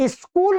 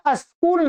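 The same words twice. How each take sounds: First: स्कूल with a clean sk cluster at the start; correct pronunciation. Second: अस्कूल with an extra a sound before the s; wrong pronunciation. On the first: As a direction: start स्कूल straight on the s, no vowel first. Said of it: "मैं स्कूल नहीं बोलता". ("स्कूल" सीधे "स्क" से, आगे कोई "इ" नहीं) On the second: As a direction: put a short a before स्कूल: अस्कूल. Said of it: "मैं अस्कूल नहीं बोलता". ("अस्कूल", "स" से पहले छोटा "अ" जोड़कर) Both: Shown as a demonstration.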